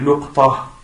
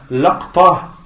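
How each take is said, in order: First: Short u after l, no vowel after q. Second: Short a after l, no vowel after q. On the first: "le quatrième qui est luqta ... Dhamma sur le lam" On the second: "le deuxième"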